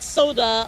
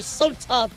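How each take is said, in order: First: The middle consonant sounds soft, like a D. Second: The middle consonant is a crisp, clear T. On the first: The speaker calls it wrong. "Sorry, not Soda" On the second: The speaker calls it right. "I'll try to pronounce the T a little uh, better"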